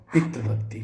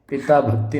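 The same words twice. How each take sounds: First: पितृ भक्ति said with "pitri"; correct form. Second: पिता भक्ति said with "pitaa"; wrong form. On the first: Teacher gives the correct form, पितृ भक्ति with a ri sound. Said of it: "ये सही होगा". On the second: Teacher reads the misspelling, पिता भक्ति with a long aa. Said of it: "पिता भक्ति नहीं". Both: Shown as a demonstration.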